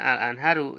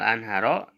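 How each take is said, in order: First: The word ends with the vowel u. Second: The word ends with the vowel a. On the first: The noun is in the nominative case. "marfu'nya al-anharu ya tandanya doma" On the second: The noun is in the accusative case. "mansubnya al-anharo tanda mansubnya fathah"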